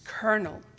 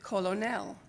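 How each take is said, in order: First: It is said like kernel, with an R sound. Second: It is said as spelled, without an R sound. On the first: The speaker calls it right. "the correct pronunciation is colonel" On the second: The speaker calls it wrong. "pronounced it colonel"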